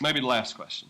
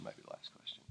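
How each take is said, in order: First: Said in the usual way. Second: Whispered echo, near silent; hushed repeat of "maybe the last question"; whispered aside. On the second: Real, not acted. Repeats the phrase, second one whispered.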